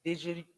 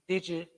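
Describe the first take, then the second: No difference in how they are said.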